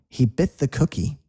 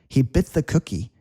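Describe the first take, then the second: Both takes have the same delivery.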